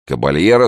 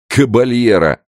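First: Said in the usual way. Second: Loud, high derisive echo; scornful snort. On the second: Acted. Gendarme mocks the old man's title, scornful snort. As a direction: snort the title back with contempt. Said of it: "фыркнул другой жандарм".

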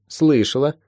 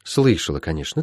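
First: Higher, rising one-word answer; girl's tentative reply. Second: Low, falling, softer echo; mentor's confirming echo. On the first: Molly answering her teacher, slightly tentative. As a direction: answer lightly, with a questioning lilt. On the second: Healer echoing Molly's answer, settled. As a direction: acknowledge it quietly and move on. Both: Acted.

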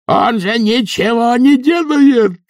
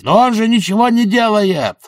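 First: Very high, slow shout; loud shout. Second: High indignant shout. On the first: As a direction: stretch the yell out over the crowd, louder. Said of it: "прокричал Эфтерп". (протяжный громкий крик) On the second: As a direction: yell it over the crowd. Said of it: "прокричал Эфтерп на ухо Бизону". (возмущённый крик) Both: A narrator's reading.

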